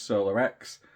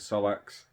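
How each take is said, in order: First: The name is said as three syllables. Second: The name is said as two syllables. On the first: The speaker calls it right. "It is Solar X" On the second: The speaker calls it wrong. "It's my stupid pronunciation of things"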